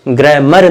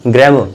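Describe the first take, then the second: First: ग्रामर with a clear final r; ग्रामर ending on a sounded r; ग्रामर said r-fully, the way not to say it; wrong pronunciation. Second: ग्रामर with a silent final r, "gramo"; ग्रामर spoken r-less, the right way; correct pronunciation. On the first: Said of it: "ग्रामर नहीं". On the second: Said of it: "तो ग्रामर ना कि र". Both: Shown as a demonstration.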